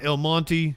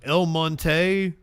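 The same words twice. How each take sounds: First: The name is said in a plain, casual way. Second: The name is said in a put-on refined way.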